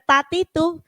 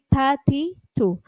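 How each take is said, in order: First: The t has no audible breathy release. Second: The t has an audible breathy release. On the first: The speaker calls it wrong. "Jadi jangan tati tu" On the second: The speaker calls it right. "ta itu ada hamesnya"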